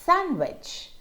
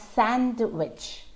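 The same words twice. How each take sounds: First: The D sound is left out. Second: The D sound is clearly pronounced. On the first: The speaker calls it right. "have a silent D in them" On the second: The speaker calls it wrong. "It's not sandwich"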